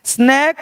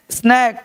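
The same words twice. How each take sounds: First: स्नैक said as "snayk", rising; first take of स्नैक with a closed "ay"; long "ay" vowel. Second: स्नैक with a wide "ae"; स्नैक with the open vowel. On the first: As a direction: say स्नैक like "snake". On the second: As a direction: say स्नैक as English "snack". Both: Shown as a demonstration. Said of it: "वहाँ ए और यहाँ ए".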